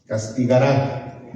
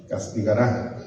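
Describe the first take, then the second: First: Said in the usual way. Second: "Castigará" with the weight on the last syllable, -RÁ; stress on the final A. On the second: Shown as a demonstration. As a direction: lean on the closing A of "Castigará". (acento marcado en la última A de "Castigará") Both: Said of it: "con acento en la A".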